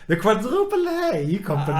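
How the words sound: It is said in a funny put-on voice.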